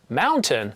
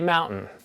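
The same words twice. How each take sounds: First: The T is clearly and fully pronounced. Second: The T is softened and barely pronounced. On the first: The speaker calls it right. "instead of saying words like this" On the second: The speaker calls it wrong. "I might say mountain. I soften my T's"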